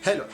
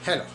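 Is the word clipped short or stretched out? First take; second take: clipped; clipped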